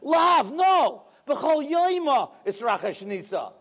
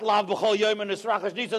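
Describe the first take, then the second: First: There is a pause right after lav. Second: It runs on with no pause after lav.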